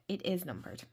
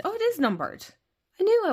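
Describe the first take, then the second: First: Said in the usual way. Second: Rising, eager surprise on "is"; surprised discovery. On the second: Real, not acted. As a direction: realise it with delight: "it IS numbered". Discovers the deck is numbered.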